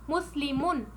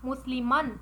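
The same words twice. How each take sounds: First: मुस्लिमुन with a clear u before the final n; Arabic ending -un spoken clearly; final u vowel. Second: मुस्लिमन with a clear a before the final n; Arabic ending -an spoken clearly; final a vowel. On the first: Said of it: "में आपको दम्मा नज़र आता". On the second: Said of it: "हालत नसब में फतहा". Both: Shown as a demonstration.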